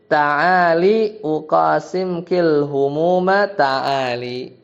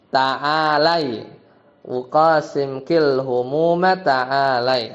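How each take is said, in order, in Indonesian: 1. Vokal pada huruf 'l' adalah 'i'. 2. Vokal pada huruf 'l' adalah 'a'. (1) "Di sini pakai ta'ali bil kasril lam" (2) "Harusnya apa? ... harusnya begitu ya"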